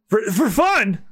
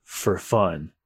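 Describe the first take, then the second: First: Higher, stammered disbelief; incredulous echo. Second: Low, soft, offhand menace; cool swordsman. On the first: Victim echoing the swordsman's answer, incredulous. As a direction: repeat it in shocked disbelief. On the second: Swordsman answering his victim's plea, cool. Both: Acted.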